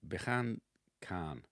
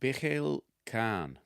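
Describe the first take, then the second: First: The name is said with a plain English accent. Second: The name is said with a Spanish accent.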